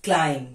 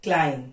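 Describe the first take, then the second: The two takes are said the same way.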